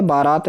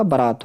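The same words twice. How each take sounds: First: बारात as baa-raat, both syllables long; wrong pronunciation. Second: बारात as low-pitched ba-raat; corrected pronunciation. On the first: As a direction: lengthen the first aa of बारात. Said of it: "नहीं होगा". (बारात में 'बा' खींचें) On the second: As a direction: clip only the first vowel of बारात short. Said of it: "बारात होगा". (बारात में पहला 'ब' छोटा बोलें) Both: Shown as a demonstration.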